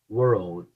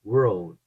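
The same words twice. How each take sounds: The two takes are said the same way.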